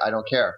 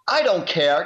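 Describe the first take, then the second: First: It is said in a calm voice. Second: It is said in an angry voice.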